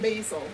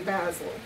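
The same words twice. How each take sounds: First: Basil is said with an American pronunciation. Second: Basil is said with a British pronunciation.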